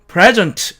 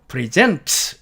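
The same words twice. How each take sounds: First: The stress is on the first syllable. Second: The stress is on the second syllable. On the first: It is a noun meaning a gift. "이렇게 앞쪽에 액센트를 주면" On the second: It is a verb meaning to present. "이렇게 뒤쪽에 액센트를 주면"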